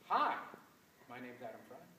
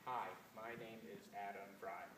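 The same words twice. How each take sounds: First: It is said with lively pitch and loudness changes. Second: It is said flatly, with little pitch change. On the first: The speaker calls it right. "definitely more interesting than the first" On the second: The speaker calls it wrong. "Why was that not well phrased?"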